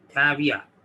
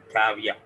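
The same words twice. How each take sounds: First: Teacher models caveat; model pronunciation. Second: Caveat said "kaviya", t almost dropped; teacher gives the final caveat; model pronunciation. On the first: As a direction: say caveat with barely any t. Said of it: "we read it like this". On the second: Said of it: "तो ये पढ़ा जाएगा". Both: Shown as a demonstration.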